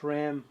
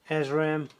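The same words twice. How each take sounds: First: The name is said in an American way. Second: The name is said in a non-American way.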